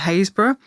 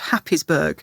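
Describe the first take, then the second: First: It is said as two smooth parts, 'Hays-borough'. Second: It is read out following the written letters. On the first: This is how locals say the place name. "we were forewarned of that one" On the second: This is how the name looks written down. "it is spelled Happisburgh"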